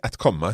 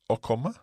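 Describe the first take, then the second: First: The first word is said in full with a t. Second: The first word is shortened to a bare vowel. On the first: A careful, formal way of speaking. "so we can say att komma" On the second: Everyday casual speech. "We can say å komma"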